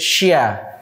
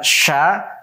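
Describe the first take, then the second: First: A y-like glide comes between sh and vowel. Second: The sh goes straight into the vowel. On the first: The speaker calls it wrong. "tapi membacanya jadi syia" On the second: The speaker calls it right. "bukan sha"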